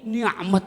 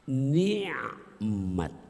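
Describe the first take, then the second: First: The middle consonant is a plain k sound. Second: The middle consonant is a throaty ain sound.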